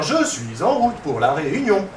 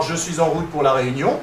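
First: Slow "Je suis en route pour la réunion", JE stressed, falling at the end; altered intonation. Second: Said in the usual way. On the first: Shown as a demonstration. Researcher mimicking a computer-generated variation, slow with stress on "Je" and a final fall. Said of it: "il va nous faire". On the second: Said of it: "plutôt qu'avoir".

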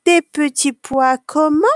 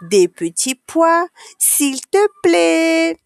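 First: Higher, pointed question with rising end; prompting question. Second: Put-on slow, high, drawn-out childlike politeness; polite pleading. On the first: Canteen lady prompting a child for manners, pointed question. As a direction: fish for the missing polite word. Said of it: "demande une dame qui s'appelle Caroline". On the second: Child asking the canteen lady for peas, drawn-out polite plea. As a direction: stretch out the magic word sweetly high. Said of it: "il faut dire le mot magique". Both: A narrator's reading.

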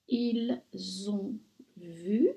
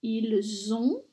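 First: Said in the usual way. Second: Ils ont with a linking z sound; liaison on ils ont. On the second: Shown as a demonstration. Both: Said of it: "je fais la liaison".

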